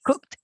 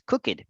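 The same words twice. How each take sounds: First: The ending adds no extra syllable. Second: The ending is said as an extra syllable. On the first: The speaker calls it right. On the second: The speaker calls it wrong. "many people say that or think that the pronunciation of this word is cooked, and actually that's not the case"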